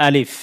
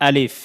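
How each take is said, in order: No difference in how they are said.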